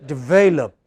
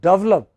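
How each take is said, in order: First: It sounds like the standard word develop. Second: It sounds like the phrase double up. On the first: The speaker calls it right. "It is this which is stressed" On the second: The speaker calls it wrong. "if you pronounce it as develop, then you know you are misunderstood. Then your listeners think you are talking about double up"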